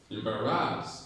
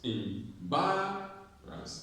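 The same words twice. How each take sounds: First: The stress is on the third syllable. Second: The stress is on the second syllable. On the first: The speaker calls it wrong. "You're stressing ras" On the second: The speaker calls it right. "So bar has the stress syllable"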